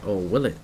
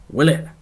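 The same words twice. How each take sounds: First: A quiet, sly "Or will it?" dropping low; low, teasing "will it" with a rise; teasing question. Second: "Will it?" pitched up with a playful rise; a higher, teasing second "Will it?"; playful repeat. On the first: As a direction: tease the doubt, softly. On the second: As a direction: echo the question with mock suspense. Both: Shown as a demonstration.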